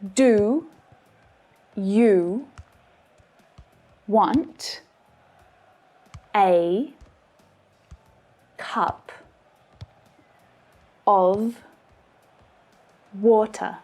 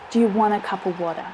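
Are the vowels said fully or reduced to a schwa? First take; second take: full; reduced. First: Each word is said with its full vowels. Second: The vowels are reduced to quick schwa sounds. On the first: "they should be pronounced like this" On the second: "suddenly full of schwa sounds when it's spoken at natural speed"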